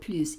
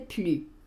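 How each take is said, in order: First: The final S sound is clearly pronounced. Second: The final S sound is left silent. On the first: It means more. "digo plus y pronuncio esta S cuando quiero hablar de más" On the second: It means no longer, as a negation. "Cuando es una negación como es aquí, diría n'existe plus"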